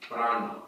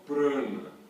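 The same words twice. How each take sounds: First: The first vowel is an open, non-nasal A. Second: The first vowel is a nasalized A. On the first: The speaker calls it right. "a pronúncia correta do, do a vogal A é sempre com o A aberto" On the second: The speaker calls it wrong. "porque no sânscrito não existe o A nasalizado dessa forma"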